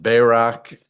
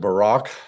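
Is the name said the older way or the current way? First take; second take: older; current. First: The name is said in an older pronunciation. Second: The name is said in the current pronunciation.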